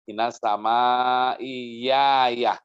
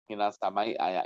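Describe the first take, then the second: First: The last word begins with a y sound. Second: The last word begins with a glottal stop. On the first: "ayahnya di hamzahnya menjadi ya" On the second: "Hamzahnya masih thabit, tidak berubah"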